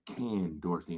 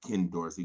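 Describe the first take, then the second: First: The first name is said like the word 'canned'. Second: The first name is said as plain 'Ken'. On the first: "you notice I said Ken Dorsey ... because he's been canned"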